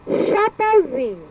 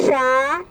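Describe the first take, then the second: First: Said in the usual way. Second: "Chapeuzinho" in separate, evenly spaced syllables. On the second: Shown as a demonstration. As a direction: sound out "Chapeuzinho" as cha, peu, zi, nho. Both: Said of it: "separar em sílabas".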